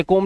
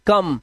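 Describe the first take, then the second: First: कोम with a long o, shown as the wrong reading; कोम said with a long o like home; wrong pronunciation. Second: कम with a short a sound, as in come; कम with a short a, as in cum; correct pronunciation. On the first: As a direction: say कोम as koam, the mistake to avoid. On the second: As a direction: say कम short, like the English word come. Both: Shown as a demonstration. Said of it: "इसे कोम नहीं पढ़ते".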